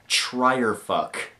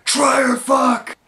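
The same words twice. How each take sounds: First: Said in the usual way. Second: High-pitched full shout; yelled out. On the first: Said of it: "like, really loud". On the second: Retold or imitated. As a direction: blurt it out at a yell. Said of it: "instead I yelled out".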